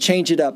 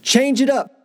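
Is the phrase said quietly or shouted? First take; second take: quietly; shouted. First: The phrase is said quietly, without shouting. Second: The phrase is shouted loudly. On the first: The call goes unheard and nothing happens. The speaker calls it wrong. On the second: The call is heard and the players respond. The speaker calls it right.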